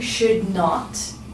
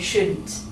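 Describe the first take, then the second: First: It is said as two full separate words. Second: It is squeezed into one short word. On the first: "instead of saying should not" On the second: "we make it shorter and we say shouldn't"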